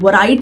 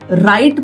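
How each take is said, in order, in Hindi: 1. शब्द R से पहले W की ध्वनि से शुरू होता है। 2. शब्द सीधे R की ध्वनि से शुरू होता है। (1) "हम वराइट नहीं बोलते हैं" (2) "डब्ल्यू साइलेंट है"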